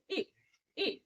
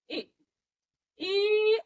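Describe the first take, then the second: First: The vowel is kept short. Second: The vowel is drawn out long. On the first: The speaker calls it right. "तो हा छोटा ई" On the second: The speaker calls it wrong. "असं लांब नाही म्हणायचंय"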